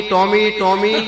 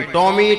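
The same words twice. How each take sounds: First: Loud drawn-out call for the dog; host yelling for his dog Tommy. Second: Higher, louder call of a name; Tommy called out high and loud. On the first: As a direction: shout the dog's name long and high, laughing through it. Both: Retold or imitated. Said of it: "ત્યાં તો હરિભાઈ રાડ પાડી".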